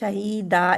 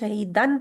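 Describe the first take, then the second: First: The word ends with a long 'a' vowel. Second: The word ends with an 'n' sound. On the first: The recitation stops at this word. "जब रुकना है आप पढ़ेंगे शहीदा, एक जबर हटा देंगे।" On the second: The recitation continues without stopping. "वैसे तो आपने शहीदन पढ़ना है ना।"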